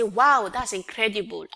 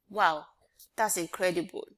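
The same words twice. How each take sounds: First: It is said with strong excitement. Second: It is said flatly, like a statement.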